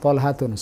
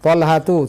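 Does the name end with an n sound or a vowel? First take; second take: n sound; vowel. First: The name ends in an added n sound. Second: The name ends in a bare u vowel. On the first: The speaker calls it wrong. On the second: The speaker calls it right.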